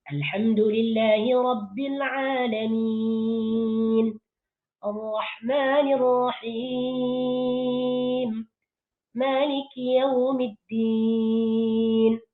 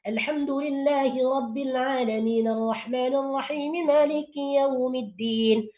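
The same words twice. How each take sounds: First: There is a pause after each verse. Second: The verses run together quickly without pauses. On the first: Listeners can reflect on the meaning of each verse. The speaker calls it right. "Jadi kalau dibaca dengan sempurna" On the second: Listeners focus on the melody rather than the meaning. The speaker calls it wrong. "dibaca dengan cepat, tanpa waqaf"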